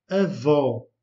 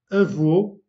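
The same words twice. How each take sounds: First: Avô, stress on an open ó, louder; avô, the grandmother word, open ó. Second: Avô, stress on a closed ô, louder; Avô with a closed ô, stressed and clear; Avô, the grandfather word, closed ô. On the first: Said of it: "un O ouvert". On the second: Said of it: "le O est fermé". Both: Shown as a demonstration.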